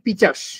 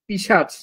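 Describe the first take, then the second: First: It has ch in the middle and ends in s. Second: It has sh in the middle and ends in ch. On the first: The sounds have swapped places. The speaker calls it wrong. "আমি বললাম কি পিচাস" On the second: This is the original form of the word. The speaker calls it right. "পিশাচ ছিল আসল উচ্চারণ"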